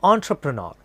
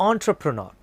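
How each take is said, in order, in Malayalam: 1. രണ്ടാമത്തെ syllable 'tra' പോലെയാണ് കേൾക്കുന്നത്. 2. രണ്ടാമത്തെ സിലബിൾ 'tra' പോലെയാണ് കേൾക്കുന്നത്.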